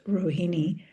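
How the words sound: The name is said with a Western pronunciation. "in the West, people pronounce it as as Rohini"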